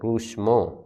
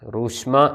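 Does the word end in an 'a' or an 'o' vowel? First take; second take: o; a. First: The word ends in an 'o' vowel. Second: The word ends in an 'a' vowel. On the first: This is the Western dialect form. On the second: This is the Eastern dialect form.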